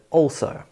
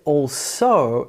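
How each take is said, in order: First: It sounds like one single word. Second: It sounds like two separate words. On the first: The speaker calls it right. "also sounds like the adverb also" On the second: The speaker calls it wrong. "it sounds like two different words, all and so"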